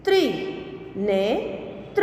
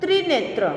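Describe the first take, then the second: First: Slow reading. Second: Said in the usual way. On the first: Shown as a demonstration. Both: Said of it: "के उदाहरण हम देखें".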